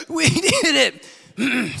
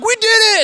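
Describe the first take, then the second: First: Winded, gasping imitation of a cheer; high, broken cheer, acting out of breath; sucking air. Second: Loud, high mock victory shout; enthusiastic cheer. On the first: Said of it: "they're just sucking air". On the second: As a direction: imitate triumphant climbers yelling. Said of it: "coming down with such enthusiasm".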